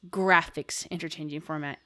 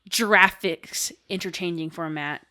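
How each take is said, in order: First: Graphics starts with a hard g sound. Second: Graphics starts with a soft j sound. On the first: The speaker calls it right. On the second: The speaker calls it wrong. "you don't say"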